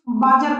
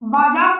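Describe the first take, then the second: First: The second vowel is short. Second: The second vowel is long, like aa. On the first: The speaker calls it wrong. "ना कि बाजर पढ़ेंगे" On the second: The speaker calls it right. "इसको हम बाजार पढ़ेंगे"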